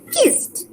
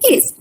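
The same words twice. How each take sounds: First: The word ends with a plain t sound. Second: The ending is not a plain t sound. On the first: The speaker calls it right. "there is a T sound which is kissed" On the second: The speaker calls it wrong. "we are not saying something like kissed"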